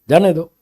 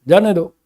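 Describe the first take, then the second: Both takes have the same delivery.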